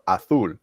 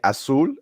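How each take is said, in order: First: The z is said like th, Spanish style. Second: The z is said like an s, Latin American style.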